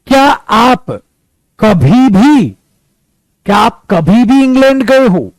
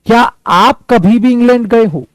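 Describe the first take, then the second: First: Loud, pressed question with stress on भी; emphatic question. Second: Raised, pressed question, भी stressed; question again. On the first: Teacher models a question for students, louder, stressing भी. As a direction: hit भी hard in क्या आप कभी भी England गए हो. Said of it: "अब मुझे एक sentence बनाना". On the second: Teacher asks students the model question again, stressing भी. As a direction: ask क्या आप कभी भी इंग्लैंड गए हो with weight on भी. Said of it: "अब मैं उल्टा बोल रहा हूं". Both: Shown as a demonstration.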